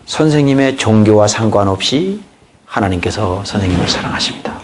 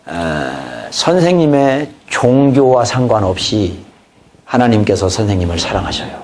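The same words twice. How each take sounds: First: Soft witnessing line. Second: Gentle witnessing. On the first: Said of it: "하고 복음으로 들어가는 것입니다". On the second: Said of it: "이 말이 굉장히 효과적이라는 걸". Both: Shown as a demonstration.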